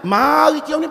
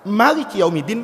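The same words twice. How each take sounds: First: The vowel after the M is long. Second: The vowel after the M is short. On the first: Allah is the owner of the Day of Judgment. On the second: Allah is the king of the Day of Judgment.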